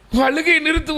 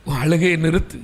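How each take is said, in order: First: Higher, sharper repeat of the order; the stern servant raises his voice at her; high scolding servant. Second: Lower, held-back order to stop crying; a stern servant starts low and firm; low scolding servant. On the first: Temple servant pushes the weeping woman to stop, pitched up. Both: Retold or imitated. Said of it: "ஊழியர் சொல்லுகிறார்".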